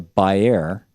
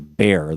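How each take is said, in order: First: The name is said the German way. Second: The name is said the American way.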